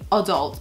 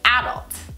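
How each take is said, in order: First: The first vowel is a short 'uh' sound. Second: The first vowel is an 'a' sound. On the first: The speaker calls it wrong. "I don't say adult because it's not a U" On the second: The speaker calls it right. "it's an A. It's adult, okay?"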